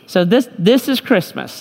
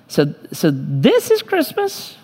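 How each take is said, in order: First: It is said with a mocking, sarcastic tone. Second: It is said as a genuine, puzzled question. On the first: The speaker is disappointed and mocking what Christmas has become. "Or you might even say that sarcastically" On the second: The speaker did not know this was what was intended. "We might put a question mark at the end of it"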